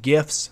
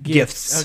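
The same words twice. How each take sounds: First: The word is said without its T sound. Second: The word is said with its T sound clearly. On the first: The speaker calls it wrong. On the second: The speaker calls it right.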